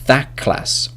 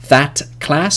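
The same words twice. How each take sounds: First: The word 'that' ends in a k sound. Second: The word 'that' ends in a t sound.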